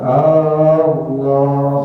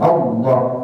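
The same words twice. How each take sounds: First: The first vowel is drawn out long. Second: The first vowel is said short. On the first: It turns into a question. The speaker calls it wrong. "jadi panjang" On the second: It is a plain statement of the name. The speaker calls it right. "hanya pendek"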